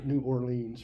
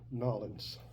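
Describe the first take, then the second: First: It is said in a plain standard accent. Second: It is said in a clipped southern accent.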